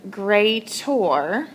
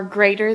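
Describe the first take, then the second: First: "greater" drawn out, leaning on the last syllable; emphasized word. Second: Said in the usual way. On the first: Shown as a demonstration. Teacher showing the "or" inside "greater", emphasized. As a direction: stretch "greater" so its ending sounds like "or". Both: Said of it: "emphasize the word greater".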